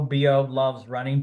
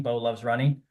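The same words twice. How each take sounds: First: "B O Loves Running" with B and O as separate letters; spelling it out. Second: Said in the usual way. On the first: Shown as a demonstration. Spelling his Instagram handle for viewers, letter by letter. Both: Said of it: "on my Instagram's Bo".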